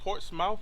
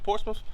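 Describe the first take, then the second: First: The name is said the way outsiders say it. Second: The name is said the way locals say it. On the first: The speaker is not from the area. The speaker calls it wrong. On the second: The speaker is from the area. The speaker calls it right.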